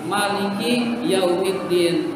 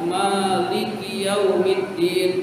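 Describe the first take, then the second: First: The first vowel of Maliki is short. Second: The first vowel of Maliki is long. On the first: It means king of the Day of Judgment. "ada yang maknya pendek" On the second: It means owner of the Day of Judgment. "ada yang maknya panjang"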